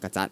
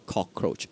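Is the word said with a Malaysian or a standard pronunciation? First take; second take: Malaysian; standard. First: The word is said with a Malaysian pronunciation. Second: The word is said with a standard English pronunciation.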